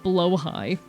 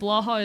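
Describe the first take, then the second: First: The name ends with a 'high' sound. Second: The name ends with a 'ha' sound. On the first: "It's pronounced like blowhigh? Fine" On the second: "I think saying blaha is funny"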